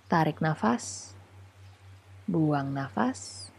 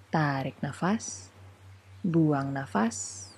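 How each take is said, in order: Both takes have the same delivery.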